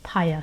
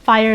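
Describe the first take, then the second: First: The name begins with a P sound. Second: The name begins with an F sound. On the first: This is the Korean form of the name. "in Korean it's pronounced Paya" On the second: This is the Japanese form of the name. "its Japanese name"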